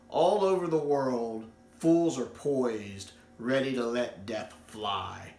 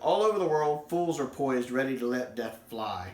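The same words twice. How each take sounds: First: It is read at a slower pace. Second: It is read at a faster pace.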